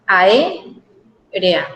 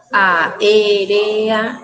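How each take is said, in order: First: "A, e, re, a" as ae, pause, rea; two joined blocks. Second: "a, e, re, a" as four drawn-out beats; four separate syllables. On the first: Teacher showing students the joining, two blocks. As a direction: pair up "A, e, re, a" into two beats. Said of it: "unirlas en dos bloquecitos". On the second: Teacher contrasting four syllables, each separated. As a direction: keep "a, e, re, a" apart, beat by beat. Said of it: "en vez de tener cuatro sílabas". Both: Shown as a demonstration.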